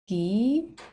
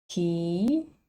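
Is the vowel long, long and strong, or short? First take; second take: long; long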